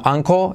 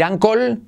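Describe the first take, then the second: First: "anco" ending on an O without L; near-silent L. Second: "ankle" said as "ancol"; full final L. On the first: Teacher giving the correct uncle, "anco" with no clear L. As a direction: drop the final L in "anco". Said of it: "sino anco". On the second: Teacher warning against a mistake, "ankle" with a hard final L. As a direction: sound the L at the end of "ankle". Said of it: "Cuidado no decir ankle". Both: Shown as a demonstration.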